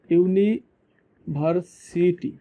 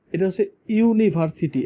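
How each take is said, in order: First: ইউনিভার্সিটি stretched very slowly, rising at the end; slow drawn-out demo. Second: ইউনিভার্সিটি said clearly and a bit slower, starting with a ইউ sound; correct pronunciation. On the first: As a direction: spell out ইউনিভার্সিটি slowly by sound. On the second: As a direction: model the right ইউনিভার্সিটি for the class. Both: Shown as a demonstration. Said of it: "এটা কিন্তু ইউনিভার্সিটি না".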